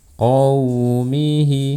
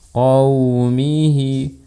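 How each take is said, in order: No difference in how they are said.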